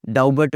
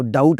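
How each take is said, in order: First: डाउबट with the b sounded; mispronounced B. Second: डाउट with no b; silent B. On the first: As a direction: say डाउबट as dow-but. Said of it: "नहीं बोलना हमने इसको". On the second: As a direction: say डाउट as dowt. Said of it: "डाउट बोलना है". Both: Shown as a demonstration.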